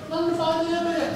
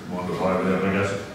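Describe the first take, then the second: First: Very high, quick squeaky-pitched take; a different tone. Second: Much lower, quick odd-voiced take; a different tone. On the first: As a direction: fling it up into a tiny high voice, fast. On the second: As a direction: drop it low and rush it in a strange voice. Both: Shown as a demonstration. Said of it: "what tone of voice you say".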